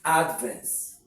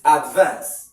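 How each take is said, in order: First: The stress is on the first syllable. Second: The stress is on the second syllable. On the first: It is used as a noun. "This is advance as a noun" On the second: It is used as a verb. "This is advance as a verb"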